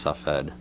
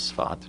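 First: The name is said with two syllables. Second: The name is said with one syllable. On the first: This form follows the Arabic pronunciation. "which is based on the Arabic pronunciation of the name" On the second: This form follows the Hebrew pronunciation. "The Hebrew pronunciation is Sfat"

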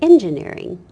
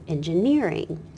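First: The stress is on the first syllable. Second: The stress is on a later syllable.

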